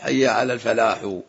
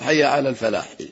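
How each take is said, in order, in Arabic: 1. يحمل الحرف الأخير ضمة زائدة. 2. ينتهي الحرف الأخير ساكنًا بلا حركة. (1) "وحاء الفلاح" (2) "والصواب"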